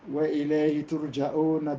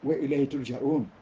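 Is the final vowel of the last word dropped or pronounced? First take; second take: pronounced; dropped. First: The last word ends with its final vowel. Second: The last word ends without its final vowel. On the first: The verse is joined to the next one. "it is permissible for you to say" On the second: The reciter stops at the end of the verse. "because we decided to stop, we said"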